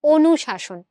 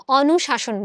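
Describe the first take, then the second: First: অনুশাসন as "onushashon", close rounded first vowel; closed "o" vowel. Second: অনুশাসন as "awnushashon", open first vowel; the rejected অনুশাসন, beginning like "law". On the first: Teacher giving the right form, অনুশাসন with initial "o". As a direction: begin অনুশাসন on a clear "o". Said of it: "আমরা কি বলি?". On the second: Teacher showing what isn't said, অনুশাসন with initial "aw". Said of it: "আমরা কিন্তু অনুশাসন বলি না". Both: Shown as a demonstration.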